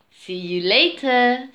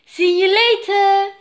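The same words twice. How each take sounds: First: Big brother Jake. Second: High, loud sing-out goodbye; little sister Louise. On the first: Jake replying to his sister, restrained big-brother voice. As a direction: answer the farewell in an everyday pitch. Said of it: "said Jake". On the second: Louise to her departing brother, high little-sister voice. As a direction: sing out the farewell in a high child's voice. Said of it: "said Louise". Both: A narrator's reading.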